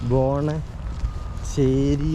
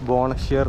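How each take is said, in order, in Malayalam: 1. പേര് അവസാനിക്കുന്നത് ചേർത്ത 'ee' സ്വരാക്ഷരത്തിലാണ്. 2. പേര് അവസാനിക്കുന്നത് 'r' വ്യഞ്ജനത്തിലാണ്. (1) "അപ്പോൾ നമ്മളെന്താ പറയുക" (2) "ശരിക്കും പ്രൊനൗൺസ് ചെയ്യേണ്ടത്"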